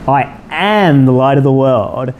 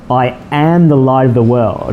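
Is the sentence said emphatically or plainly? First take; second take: emphatically; plainly. First: The sentence is said with strong, heavy emphasis. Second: The sentence is said plainly, without extra emphasis. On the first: "I need to say it with a bit more emphasis" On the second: "just again"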